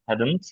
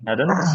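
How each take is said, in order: First: The final t is clearly released. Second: The final t is held without release. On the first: The word is said on its own. "একা যখন উচ্চারণ করবো তখন ঠিক আছে" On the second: The word is said inside a sentence. "Release আর করছি না"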